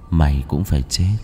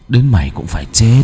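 First: Low dark death threat; low possessed voice promising death; gloomy otherworldly voice. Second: Louder demonic death threat; possessed voice rising in menace; gloomy otherworldly voice. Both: Acted. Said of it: "giọng âm u".

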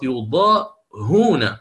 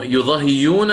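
First: يضاهون slow, ha with u, no hamza; يضاهون drawn out, damma on the ha before the long waw; correct reading. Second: يضاهيون with a y glide after the kasra; يضاهيون showing the hamza turned into ya; wrong reading, ibdal. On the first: Teacher giving the right reading after the wrong one. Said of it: "ستضم الهاء وجوبا". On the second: Teacher voicing the student's wrong reading of the word. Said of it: "لا، خطأ". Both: Shown as a demonstration.

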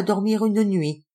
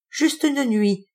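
First: Said in the usual way. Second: "une" drawn out, high and slow; bitter stress on une. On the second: Acted. Old lady stressing just one night, slow and high. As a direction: lean hard on "une", slowly.

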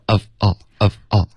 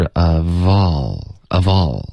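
First: "of all" chopped into separate words; unlinked words. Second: Slow "of all" flowing as uh-vawl; linked pronunciation. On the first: Teacher showing the error to avoid, unlinked of all. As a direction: stop after "of", then say "all" apart. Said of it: "不要". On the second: Teacher insisting on connected speech, linked of all. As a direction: join "of all" with no gap, stretching all. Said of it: "of跟all一定要连读". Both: Shown as a demonstration.

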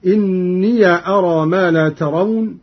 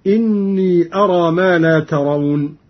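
First: إني as inniya; open yaa. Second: Said in the usual way. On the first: Shown as a demonstration. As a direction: recite إني with a final -ya before أرى. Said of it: "بفتح الياء فيهما". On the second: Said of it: "قرأ قالون أيضًا بفتح الياء".

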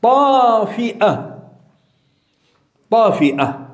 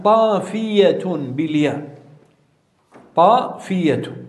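First: طافئة with a long ā and a glottal stop before the final a; pronounced with hamza. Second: طافية with a long stretched ā and a clear y glide before the ending; pronounced with yā'. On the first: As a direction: say طافئة slowly as ṭāfi-'a, breaking cleanly before the last vowel. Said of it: "همز". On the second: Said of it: "ضبط هذه الكلمة بالياء". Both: Shown as a demonstration.

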